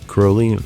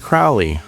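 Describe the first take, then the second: First: The first syllable rhymes with holy. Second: The first syllable rhymes with cow. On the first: The speaker calls it right. "rhymes with holy" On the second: The speaker calls it wrong. "rhyming it with cow"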